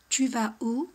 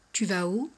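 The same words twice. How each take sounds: First: "Tu vas où?" with the voice lifted on "où"; rising "Tu vas où?" as a casual question; rising intonation question. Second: Said in the usual way. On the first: Shown as a demonstration. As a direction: ask "Tu vas où?" and rise at the end. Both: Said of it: "la de la entonación".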